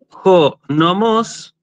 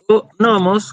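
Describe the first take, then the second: First: The stress is on the last syllable of nomos. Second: The stress is on the first syllable of nomos. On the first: It means the meadow. "el acento en la última omicron" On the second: It means the law or custom. "con acento eh, agudo en la primera omicron"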